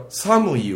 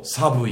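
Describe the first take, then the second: First: Said in the usual way. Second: 寒い with a b sound, "sabui"; Kansai pronunciation. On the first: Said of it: "寒いを寒いって言ったり". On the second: Shown as a demonstration. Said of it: "寒いって言ったり".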